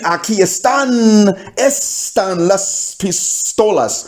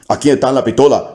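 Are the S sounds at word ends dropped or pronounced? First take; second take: pronounced; dropped. First: The final S sounds are pronounced. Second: The final S sounds are dropped. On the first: "you mean aquí están, están las pistolas" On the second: "you just can't pronounce the S"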